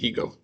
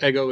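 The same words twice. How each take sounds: First: The word is pronounced the English way. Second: The word is pronounced the Greek way. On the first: The speaker calls it wrong. "We don't pronounce it ego" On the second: The speaker calls it right. "we pronounce it ego in Greek"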